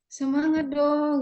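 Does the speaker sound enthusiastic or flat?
flat. It is said in a flat, unenthusiastic way. The speaker is not motivated themselves. The speaker calls it wrong. "kita sendiri nggak semangat"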